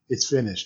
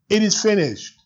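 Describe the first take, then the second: First: It is said at a normal volume. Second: It is shouted loudly.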